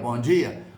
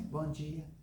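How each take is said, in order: First: The greeting is said loudly and firmly. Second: The greeting is said softly and weakly. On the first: The greeting demands to be heard and answered. The speaker calls it right. "num tom que a pessoa pode estar com fone de ouvido que ela escuta" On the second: The greeting can easily go unnoticed. The speaker calls it wrong. "não fala assim"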